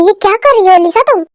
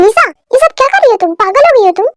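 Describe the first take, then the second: First: Said in the usual way. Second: Angry question. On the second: Acted. [name] demands to know what [name] is doing, angry and fast. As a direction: fire the question at her, quick and sharp.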